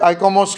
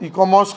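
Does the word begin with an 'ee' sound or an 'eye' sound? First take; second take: eye; ee. First: The word begins with an 'eye' diphthong. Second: The word begins with a short 'i' vowel. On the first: Others pronounce it this way. "काही ठिकाणी उल्लेख आयकॉमॉस करतात" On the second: Some people pronounce it this way. "काही लोक इकॉमॉस करतात"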